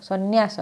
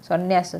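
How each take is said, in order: The two takes are said the same way.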